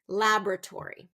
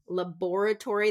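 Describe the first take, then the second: First: It is said with a non-British pronunciation. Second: It is said with a British pronunciation. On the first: The speaker calls it right. "It's going to be laboratory" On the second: The speaker calls it wrong. "This is a very British pronunciation"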